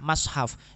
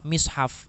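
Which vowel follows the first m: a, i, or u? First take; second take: a; i. First: The first vowel is an open a sound. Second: The first vowel is a front i sound. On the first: "menggunakan fathah" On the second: "menggunakan kasroh"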